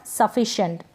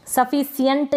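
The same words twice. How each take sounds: First: Said in the usual way. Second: "सफिशिएंट" misread with S, sa-fi-si-yent; wrong S sound. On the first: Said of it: "सफिशिएंट नहीं पढ़ेंगे आप". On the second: Shown as a demonstration. Teacher warning against a misreading, "सफिशिएंट" as sa-fi-si-yent. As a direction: put S for SH in "सफिशिएंट". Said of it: "स पढ़ दें इसको तो गलत हो जाएगा".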